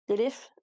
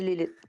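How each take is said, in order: First: The name ends with an English th sound. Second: The name ends with a plain t sound. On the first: "comme à l'anglaise comme il faut" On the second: "je suis pas capable, fait que je le dis Lilith"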